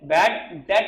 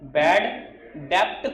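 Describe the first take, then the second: First: No b sound is heard in debt. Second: A b sound is heard in debt. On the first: The speaker calls it right. "बी word is silent" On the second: The speaker calls it wrong. "बैड डेप्ट कोई नहीं बोलेगा"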